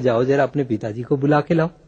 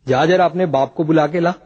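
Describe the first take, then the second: First: It is said in a calm tone. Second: It is said in an angry tone.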